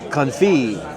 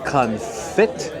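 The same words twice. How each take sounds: First: The final T sound is silent. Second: The final T sound is pronounced. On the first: "The T is silent" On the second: "I would say duck confit, F I T"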